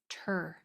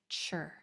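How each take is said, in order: First: The sound begins with a clear 't'. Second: The sound begins with a 'ch'. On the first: The speaker calls it right. "We want T R to sound like a T R" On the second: The speaker calls it wrong. "not chur"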